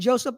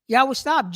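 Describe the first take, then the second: First: The name is said in its English form. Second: The name is said in its Hebrew form.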